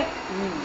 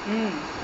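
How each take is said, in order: First: Soft low "Hmm" of a listener; listening hum. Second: Listening hum. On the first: Teacher shows children a listener's soft hum. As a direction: hum softly to show you are listening. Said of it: "you should say". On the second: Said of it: "Means you're hearing". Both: Shown as a demonstration.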